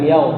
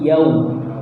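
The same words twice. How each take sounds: First: The vowel sounds like an o. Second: The vowel is a rounded u. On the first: The speaker calls it wrong. "Jangan diganti dengan vokal o" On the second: The speaker calls it right. "monyongkan agar muncul vokal"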